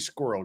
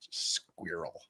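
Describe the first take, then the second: First: The word is said with an American pronunciation. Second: The word is said with a British pronunciation. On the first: "it should be Squirrel Girl" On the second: "where you're from, it's pronounced Squirrel"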